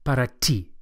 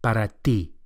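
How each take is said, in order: First: The t is hard and English-like. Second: The t is soft, with the flat tongue. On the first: The speaker calls it wrong. "Not para ti" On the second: The speaker calls it right. "the Spanish T is also softer than English"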